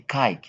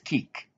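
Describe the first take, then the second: First: The vowel is a long 'eye' sound. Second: The vowel is a short 'ih' sound. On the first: The speaker calls it wrong. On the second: The speaker calls it right. "no, it is kick"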